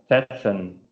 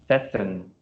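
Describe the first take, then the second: No difference in how they are said.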